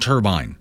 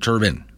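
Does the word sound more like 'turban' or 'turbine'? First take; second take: turbine; turban. First: The word ends like 'turbine', not like 'turban'. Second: The word ends like 'turban', the headdress. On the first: The speaker calls it right. "It's a wind turbine" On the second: The speaker calls it wrong. "not a turbine"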